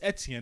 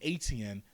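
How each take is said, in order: First: The name is said with a French pronunciation. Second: The name is said with an American pronunciation. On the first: The speaker calls it right. "That's the proper way to say it in French" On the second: The speaker calls it wrong. "my mother Americanized it and calls me Etienne. That's not how you pronounce it"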